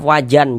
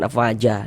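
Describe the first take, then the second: First: The word ends with an n sound. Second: The word ends in a short a vowel. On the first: "jangan afwajan" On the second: "jangan afwaja"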